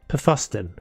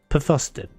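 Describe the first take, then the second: Both takes have the same delivery.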